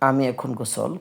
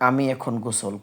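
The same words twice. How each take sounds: The two takes are said the same way.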